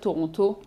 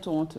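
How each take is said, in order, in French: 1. Le deuxième T est bien prononcé. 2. Le deuxième T est muet, dit rapidement. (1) "il fallait pas dire Toronto" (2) "il fallait dire Toronto"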